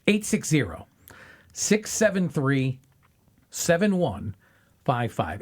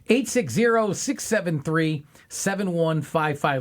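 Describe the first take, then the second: First: The number is said at a slower pace. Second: The number is said at a fast pace.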